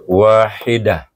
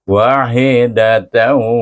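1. Kata itu berhenti dan berakhir dengan h lembut. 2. Kata itu berlanjut dengan t dan akhiran sengau -tan. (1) "kita wakafkan, jadi ta marbutah tu tukar jadi hawa damir" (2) "Kalau kita sambung tanwin bertemu dengan waw"

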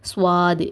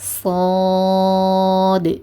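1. முதல் மெய்யெழுத்துக்குப் பின் w ஒலி வருகிறது. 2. முதல் மெய்யெழுத்துக்குப் பின் w ஒலி வருவதில்லை. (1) "நடுவில் ஒரு வாவை போட்டு சுவாது சுவாதுன்னு சொல்லுவாங்க. சுவாதுன்னு சொல்லக்கூடாது" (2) "சாது சாது"

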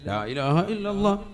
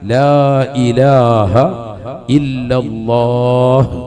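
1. അവസാന അക്ഷരം തിടുക്കത്തിൽ, ചുരുക്കി പറയുന്നു. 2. അവസാന അക്ഷരം നീട്ടി, വ്യക്തമായ h ശബ്ദത്തോടെ പറയുന്നു. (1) "ഇതെങ്ങനെയല്ലെന്ന്" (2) "അവസാനം നീട്ടി ഹാ എന്റെ ഉച്ചാരണം കൊടുത്ത് തന്നെ നിർത്തണം"

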